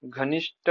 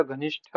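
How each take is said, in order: First: घनिष्ठ ending in unaspirated 't'; missing aspiration. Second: Said in the usual way. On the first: Shown as a demonstration. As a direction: say घनिष्ठ as 'ghanisht', no breath after t. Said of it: "नहीं होता". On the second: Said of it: "होता है".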